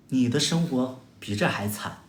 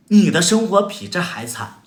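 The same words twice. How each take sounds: First: Said in the usual way. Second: Louder and higher, punching 你 at the start; emphatic repeat. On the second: Real, not acted. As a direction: hammer the point home on 你. Repeats line to stress it. (加重语气，重读“你”，更响更高)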